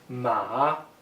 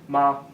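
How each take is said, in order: First: The pitch dips down and then rises. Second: The pitch is light and unmarked. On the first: It means horse. "Third tone, descending then rising" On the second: Added at the end, it makes a question. "final neutral tone, which is nice and easy"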